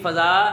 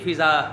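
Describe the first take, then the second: First: The first vowel is an open 'a' sound. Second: The first vowel is a short 'i' sound. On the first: The speaker calls it right. "फे की ज़बर के साथ पढ़ना है" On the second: The speaker calls it wrong. "फे की ज़ेर के साथ इसको हमने नहीं पढ़ना"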